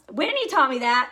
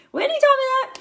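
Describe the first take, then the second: First: Said in the usual way. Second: Much higher and louder playful repeat of the name; excited squeal. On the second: Shown as a demonstration. Leader to her team, gushing about her mentor Whitney, high excited squeal.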